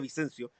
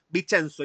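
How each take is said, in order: First: The name ends with a 'syoh' sound. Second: The name ends with a 'tsoh' sound. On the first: This is how people in Chile say it. "en Chile se le dice Vicencio" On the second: This is the original Italian form. "nadie lo pronuncia bien"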